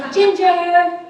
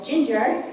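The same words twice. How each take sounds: First: Full yell, high and loud. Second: Half-hearted call of GINGER; a first, restrained mock yell; retold yell. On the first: Retold or imitated. Friend calling across campus to Ginger, full-out yell. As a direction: holler the nickname across campus. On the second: Friend calling across campus to Ginger, restrained yell. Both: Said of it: "I would yell".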